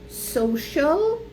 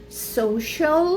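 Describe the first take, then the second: Both takes have the same delivery.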